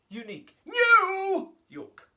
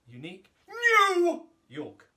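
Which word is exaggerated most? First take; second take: new; new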